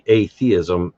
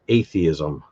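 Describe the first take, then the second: First: The word is grouped as 'a' plus 'theism'. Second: The word is grouped as 'athe' plus 'ism'. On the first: It means a lack of theism. The speaker calls it right. "it should be atheism" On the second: It sounds like some kind of ism. The speaker calls it wrong. "it sounds like it's athe with an ism on the end"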